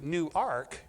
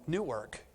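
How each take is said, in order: First: The name is said as two words. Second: The name is blended into one word. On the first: It names the church. "making sure I said New Ark" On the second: It names the city. "the way that you would normally think of when you saw that word"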